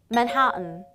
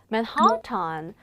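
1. 't'는 비음 어미 앞에서 삼켜서 발음해요. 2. 't' 소리는 완전한 t로 터뜨려 발음해요. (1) "정확한 발음은 맨하탄" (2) "뭔가 막 이상하게 하고 싶지 않나요?"

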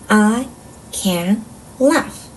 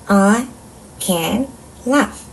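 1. 단어마다 짧게 끊어 읽어요. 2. 단어마다 짧게 끊어 읽어요.

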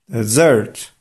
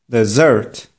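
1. Akcent pada na drugą sylabę. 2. Akcent pada na drugą sylabę.

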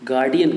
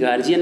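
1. बीच का व्यंजन 'd' की आवाज़ है। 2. बीच का व्यंजन 'j' की आवाज़ है। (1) "गार्डियन कहते हैं" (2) "गार्जियन नहीं कहते उसको"

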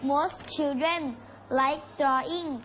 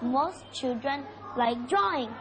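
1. พูดด้วยสำเนียงแบบไทย 2. พูดด้วยสำเนียงอังกฤษแบบเจ้าของภาษา (1) "ภาษาอังกฤษแบบไทยออกเสียงว่า" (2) "แต่ฝรั่งออกเสียงว่า"

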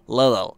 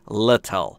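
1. صدای t وسط کلمه شبیه یک d نرم است. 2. صدای t وسط کلمه یک t واضح و محکم است. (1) "در امریکن اگر بخواید تلفظ کنید میشه little. ... یه دی که یکم تو دماغیه" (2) "انگلیسی معیار و انگلیسی استاندارد آموزشی"

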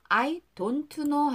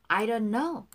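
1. don't의 t는 완전히 터뜨려서 발음해요. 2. don't의 t는 약하게 발음해요. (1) "I don't know 하지 마시고요" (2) "T로 끝난 단어는 약하게 발음하는 거예요"

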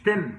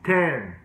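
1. حرف العلة قصير ومقطوع. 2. حرف العلة ممدود وأطول. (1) "مش 10" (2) "كده 10"

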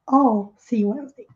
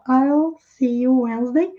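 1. "I'll" é falado como a palavra "all". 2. "I'll" é falado como "eye" com L. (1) "a pronúncia é o mesmo que esse all de todos" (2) "Falar I, que é eu, com o som de L no final"

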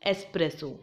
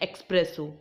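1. पहले अक्षर में S से पहले K की ध्वनि नहीं है। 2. पहले अक्षर में S से पहले K की ध्वनि है।

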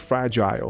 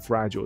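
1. 最后一个音节与 'isle' 押韵。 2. 最后一个音节是弱化的 'ul' 音。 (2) "或者L 都是OK 的"

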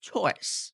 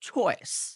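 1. ch ধ্বনিতে বাতাসের জোরালো ফুঁ আছে। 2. ch ধ্বনিতে বাতাসের জোরালো ফুঁ আছে।

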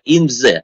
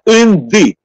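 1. Слово 'the' произносится со звуком z. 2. Слово 'the' произносится со звуком, похожим на d. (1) "Наш читает инзе" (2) "Это инды"

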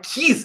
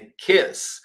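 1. A vogal soa como um 'ee' longo. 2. A vogal soa mais próxima de 'eh'. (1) "não é kiss" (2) "é kiss"

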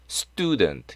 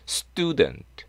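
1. s 뒤의 t는 무기음이라서 스뜨처럼 발음해요. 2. s 뒤의 t는 무기음이라서 스뜨처럼 발음해요.

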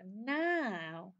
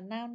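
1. Nguyên âm dài và kéo dài ra. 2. Nguyên âm ngắn và dứt khoát. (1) "mà đọc là now" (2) "chứ không có đọc là now"

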